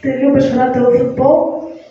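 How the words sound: The voice rises at the end.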